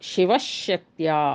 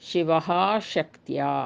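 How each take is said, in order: First: The h is replaced by a doubled sh sound. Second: The word ends in a breathy h sound. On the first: "ವಿಸರ್ಗವನ್ನು ತೆಗೆದು ಆ ಜಾಗ ಅಲ್ಲಿ ಅರ್ಧ ಶಕಾರವನ್ನು ಸೇರಿಸಿದಾಗ" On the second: "ವಿಸರ್ಗ ಉದಾಹರಣೆಗೆ"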